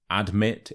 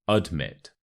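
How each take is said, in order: First: "admit" with a full AD at the start; wrong "admit". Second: "admit" as ud-MIT; weak first vowel. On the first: Teacher shows learners the mistake, "admit" with a full "ad". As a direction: open "admit" on a clear a as in "add". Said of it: "So it's not admit". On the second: Teacher corrects learners, "admit" starting with a weak uh. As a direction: reduce the A of "admit" to uh, weight on "mit". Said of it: "So the A becomes a, uh". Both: Shown as a demonstration.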